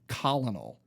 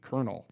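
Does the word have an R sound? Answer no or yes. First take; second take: no; yes. First: It is said as spelled, with no R sound. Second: It is said with an R sound, like kernel. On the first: The speaker calls it wrong. "I pronounced it colonel because, you know, that's how it's spelled" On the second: The speaker calls it right. "you actually say it like colonel"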